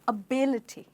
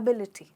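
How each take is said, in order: First: The stress is on the second syllable. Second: The stress is on the first syllable. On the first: The speaker calls it right. "हमारा जो stress है वो आई पे चला गया है" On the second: The speaker calls it wrong. "मेरे बहुत सारे स्टूडेंट्स कहते हैं एबिलिटी, जो कि एक बहुत बड़ा प्रोनाउंसिएशन मिस्टेक है"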